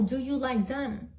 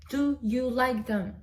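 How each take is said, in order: First: Said in the usual way. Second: "Do you like them?" slower, leaning on "Do"; slow emphatic repeat. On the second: Shown as a demonstration. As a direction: press the "Do" and take your time.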